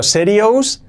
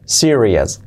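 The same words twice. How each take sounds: First: "serious" as SE-ri-ous, rising; higher pitch, full "ous" on "serious"; wrong Spanish-style reading. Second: "serious" as SI-ri-es; falling "serious" with weak "-es"; correct pronunciation. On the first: Teacher reads out the spelling: "serious" as rising SE-ri-ous. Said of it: "que sea serious". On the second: Teacher models for learners: "serious" as SI-ri-es. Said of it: "Es la terminación ous". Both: Shown as a demonstration.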